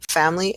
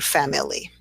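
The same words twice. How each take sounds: First: The word is said with two syllables. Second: The word is said with three syllables. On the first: "it turns into a two syllable word" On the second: "as opposed to"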